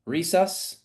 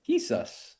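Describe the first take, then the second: First: The name starts with an English-like R sound. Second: The name starts with a breathy H-like sound. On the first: "You said it with an accent" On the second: "It's like he sus"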